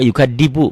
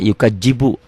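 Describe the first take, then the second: First: The middle consonant is a plain d sound. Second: The middle consonant is a j sound. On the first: "Ada juga yukadibu" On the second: "Banyak kok yang baca yukajibu"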